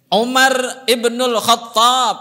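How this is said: The name is said in full Arabic form.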